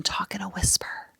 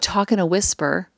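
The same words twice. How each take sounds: First: Whisper. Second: Said in the usual way. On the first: Shown as a demonstration. Former teacher showing how she quieted first graders, whispering. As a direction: drop into a hushed whisper. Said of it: "I would even talk in a whisper". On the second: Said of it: "when I would talk in a whisper".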